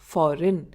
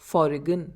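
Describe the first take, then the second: First: The G is silent before the N. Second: The G is sounded before the N. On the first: The speaker calls it right. "we pronounce it as foreign" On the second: The speaker calls it wrong. "instead of foreign"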